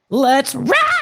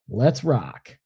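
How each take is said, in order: First: It is screamed loudly with high energy. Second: It is said calmly, without screaming.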